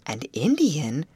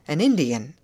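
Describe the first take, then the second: First: "An Indian" echoed as a question; surprised query. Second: "An Indian" as a firm, louder answer; answering statement. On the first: Girl echoing the foreman's answer, "An Indian" as a query. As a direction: query "An Indian", swooping up on the word Indian. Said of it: "queried Betty". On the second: Foreman answering a girl's question, "An Indian" stated firmly. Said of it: "answered Mister Hammond". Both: A narrator's reading.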